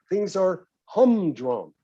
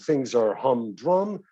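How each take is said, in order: First: The stress is on the first syllable. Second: The stress is on the second syllable. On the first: The speaker calls it right. "The emphasis, of course, on the first syllable" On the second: The speaker calls it wrong. "you don't say"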